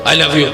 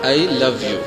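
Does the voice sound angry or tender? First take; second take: angry; tender. First: It is said in a harsh, angry way. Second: It is said in a sweet, tender way. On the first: It provokes anger rather than love. The speaker calls it wrong. "এরকম করে বলে ... ভালোবাসা জাগবে নাকি রাগ জাগবে?" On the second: It conveys affection. The speaker calls it right. "অনেক মিষ্টি একটা ওয়ার্ড না"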